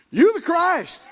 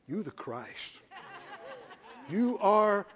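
First: Higher and louder, bursting with conviction; excited declaration. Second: Much softer, with a laugh in it; hushed laughing awe. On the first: Peter declares to Jesus, loud and thrilled. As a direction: proclaim it like you can't hold it in. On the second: Peter speaks softly to Jesus, laughing in wonder. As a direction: breathe it out in awe. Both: Retold or imitated.

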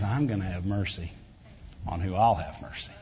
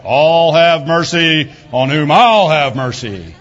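First: Softer and lower, tender and unhurried; a father quietly promising his children mercy; gentle. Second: Louder, slow, stern mocking delivery with a laugh; a stern judge laying down the law, mocked; harsh mock reading. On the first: Retold or imitated. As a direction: say it softly like a loving father. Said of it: "that's not what God said". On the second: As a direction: ham up a cold, unforgiving God. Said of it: "that's how they say it".

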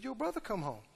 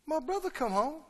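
First: Subdued report. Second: Higher, soft disbelieving echo; incredulous question. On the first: Servant telling the older son the news, subdued. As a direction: break the news very softly. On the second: Older son hearing of his brother's return, incredulous. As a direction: echo it back as a stunned question. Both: Acted.

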